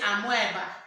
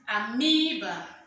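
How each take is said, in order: First: The stressed vowel is not a long ee. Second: The stressed vowel is a long ee. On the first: The speaker calls it wrong. "We don't say amoeba" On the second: The speaker calls it right. "It is amoeba"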